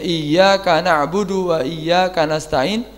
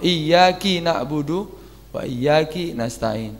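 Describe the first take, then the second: First: The k in iyyaka is followed by a. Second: The k in iyyaka is followed by i. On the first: The verse keeps its intended meaning. The speaker calls it right. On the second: The meaning of the verse is changed. The speaker calls it wrong. "diganti dengan kasrah"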